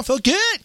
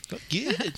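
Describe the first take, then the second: First: Higher, sing-song 'Felt good'. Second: Much softer, half to herself 'Felt good'; soft aside. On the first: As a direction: chirp 'Felt good' up high and bright. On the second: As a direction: drop it to a quiet mutter 'Felt good'. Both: Acted. Repeats tagline two ways.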